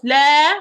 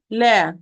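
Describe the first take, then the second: First: LA said wrongly, louder and drawn out; mis-shape LA with a loud, long vowel. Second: Said in the usual way. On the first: Shown as a demonstration. Teacher shows students a badly opened mouth, wrong LA. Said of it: "not la". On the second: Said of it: "look to my mouth, please. I say la".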